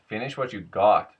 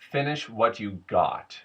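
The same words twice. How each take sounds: First: It has a Mexican-accented melody. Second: It has a General American melody. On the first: "whereas with Mexican, it goes da" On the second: "General American, it tends to go da da da da"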